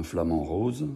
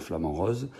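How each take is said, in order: First: "rose" with a closed, Parisian long O. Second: "rose" with an open southern O; Marseille O in rose. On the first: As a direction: say "rose" like "rôse", standard French O. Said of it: "je ne peux pas dire". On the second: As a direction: say "rose" like "rosse" with a voiced z, Marseille style. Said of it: "je suis obligé de dire". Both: Shown as a demonstration.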